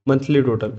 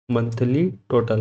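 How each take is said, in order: First: Said in the usual way. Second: "monthly total" said slowly with stress on "monthly"; "monthly" leaned on, the whole phrase drawn out; slow dictation. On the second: Shown as a demonstration. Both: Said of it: "M O N T H L Y".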